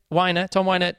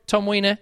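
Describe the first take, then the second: First: Weiner said as WHY-ner; corrected name. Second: Weiner said as WEE-ner; mispronounced name. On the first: Reviewer correcting the narrator's name, Weiner as WHY-ner. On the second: Reviewer naming the audiobook narrator, Weiner slipped into WEE-ner. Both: Real, not acted.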